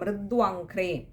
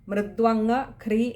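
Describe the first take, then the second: First: The word is said smoothly as one unit. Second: The word is broken apart before 'ghri'. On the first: The speaker calls it right. "മൃദു അംഘ്രിയാണ്" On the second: The speaker calls it wrong. "എന്നെടുക്കരുത്"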